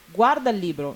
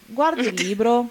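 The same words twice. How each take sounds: First: It is said with a commanding tune. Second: It is said with a questioning tune. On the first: The listener is told to look at the book. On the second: It asks whether someone is looking at the book.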